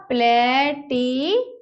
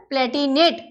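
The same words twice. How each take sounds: First: Palatinate broken into long, separate syllables; slow dictation. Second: Said in the usual way. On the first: Shown as a demonstration. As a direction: stretch Palatinate out while writing it. Repeats it slowly while writing. (Palatinate को टुकड़ों में, धीरे बोलना)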